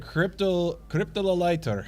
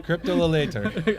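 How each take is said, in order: First: Cryptololator, sounded out with a laugh; mock pronunciation. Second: Cryptololator again, rising at the end; second try. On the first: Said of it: "Oh, how to say it?". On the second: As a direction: test Cryptololator with a rising question. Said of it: "Well, how would you say it?". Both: Shown as a demonstration.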